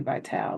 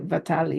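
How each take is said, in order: First: The name is said the American way. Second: The name is said the Italian way. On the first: "that's how we say it over here" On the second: "I think Italian would be a Vitali"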